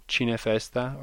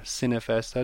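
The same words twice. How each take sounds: First: "Cinefesta" with an Italian ch sound at the start; Italian pronunciation. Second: "Cinefesta" with an s sound at the start; English pronunciation. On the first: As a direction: say "Cinefesta" as CHEE-neh-festa. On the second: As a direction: say "Cinefesta" as SIN-eh-festa. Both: Shown as a demonstration. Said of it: "depending on how you pronounce it".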